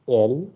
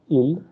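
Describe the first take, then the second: First: "L" said as Spanish él, opening like English letter A; Spanish "L", vowel as in English A; Spanish pronunciation. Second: "il" with an English ee-like vowel; "il" with the E read as English E; English-style mispronunciation. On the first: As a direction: start "L" with an ay-like E. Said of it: "the letter E is pronounced as". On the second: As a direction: say "il" the English way, with an i sound. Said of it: "The way you pronounce in English". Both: Shown as a demonstration.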